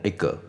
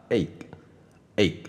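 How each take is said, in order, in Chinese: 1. 最后的 g 会带一个额外的元音。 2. 最后的 g 只是喉咙轻轻一顿，没有元音。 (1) "念得不好的人都会念egg，因为他们觉得G 哥哥" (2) "这样就好了，有点像这样子捏了一下"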